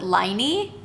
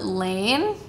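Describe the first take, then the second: First: The name is said with two syllables. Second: The name is said with one syllable. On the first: "I've heard people call it Liney" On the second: "I've heard people call it Lane"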